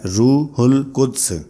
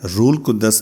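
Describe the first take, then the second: First: The h is kept and the final d is barely heard. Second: The h is dropped and the d is doubled before a vowel. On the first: The speaker calls it right. "बल्कि इसको बोलने का तरीका है रूहुल कुद्स, यानी दाल की आवाज बिल्कुल कम आती है" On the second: The speaker calls it wrong. "रूल कुद्दस नहीं है"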